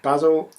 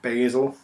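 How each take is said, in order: First: Basil is pronounced in a non-American way. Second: Basil is pronounced in an American way.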